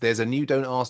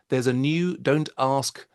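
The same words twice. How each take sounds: First: It is said fast. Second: It is said slowly.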